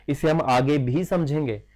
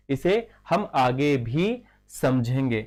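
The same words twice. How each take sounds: First: Said in the usual way. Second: Slow, measured restatement; slow repeat. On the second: Real, not acted. Teacher repeating a point for students, slowly and deliberately. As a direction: space the words out for students.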